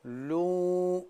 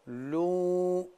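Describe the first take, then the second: First: The vowel is a thick, full back u. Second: The same.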